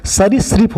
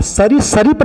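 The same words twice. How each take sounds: First: सरीसृप said crisply as sa-ri-srip; correct pronunciation. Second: सरीसृप said as sa-ri-sa-rip with an extra vowel; wrong pronunciation. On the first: Teacher showing students the right सरीसृप, sa-ri-srip. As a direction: clip सरीसृप to sa-ri-srip, no extra vowel. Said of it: "बल्कि सरीसृप होता है". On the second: Teacher mimics a colleague's error, saying सरीसृप as sa-ri-sa-rip. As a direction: drag सरीसृप out as sa-ri-sa-rip, the mistaken way. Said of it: "ये उच्चारण बिल्कुल गलत है". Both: Shown as a demonstration.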